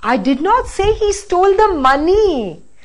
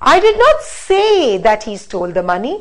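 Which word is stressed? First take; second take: money; say. First: The word money carries the main stress. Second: The word say carries the main stress. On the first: Something other than the money was stolen. "Now the last" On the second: Maybe it was written down, not spoken. "Now let's stress on say"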